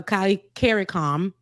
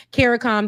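First: "Kali caricom" said first as kah-lee-keh-ree-kom, with an open kah start; "caricom" with an open ah start and a tapped middle r; kah-lee-keh-ree-kom, run quickly together; first try at the name. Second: "caricom" said KAIR-uh-kom, with a flat American air and a falling end; "caricom" redone the American way, a bit higher and louder; KAIR-uh-kom, stressed up front in a clear American accent; American pronunciation. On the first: Real, not acted. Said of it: "in my American accent".

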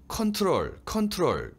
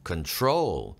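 First: "컨트롤" with high stress on "컨"; first-syllable stress. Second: "Control" with the stress on "trol"; light "Con", long falling "trol" in "Control"; second-syllable stress. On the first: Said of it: "첫 음절에 강세를 무조건 넣으시는데". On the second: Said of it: "둘째 음절에 있고". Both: Shown as a demonstration.

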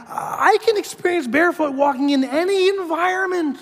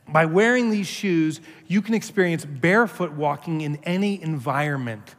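First: High, mechanical recitation; much higher deadpan echo of the ad line; parroting the letter. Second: Said in the usual way. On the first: Retold or imitated. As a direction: recite it like a hypnotized robot. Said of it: "I'm like".

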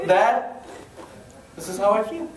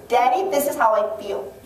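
First: Lightly acted son, in a near-normal voice; son addressing dad. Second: Put-on higher-pitched small-child voice; little daughter. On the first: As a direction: tell your dad, only slightly in character. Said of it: "That would never work with my dad". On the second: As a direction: play a preschooler announcing her feelings to daddy. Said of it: "my daughter, she".

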